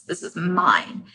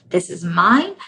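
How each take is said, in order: First: Quiet possessive. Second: Said in the usual way. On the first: Acted. Ego quote, quiet slow take.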